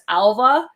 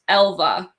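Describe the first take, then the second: First: The name begins with an 'a' vowel. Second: The name begins with an 'e' vowel. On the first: This is how the spelling looks. The speaker calls it wrong. "it looks like it says Alva" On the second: This is how the name is meant to be said. The speaker calls it right. "I guess it's pronounced Elva"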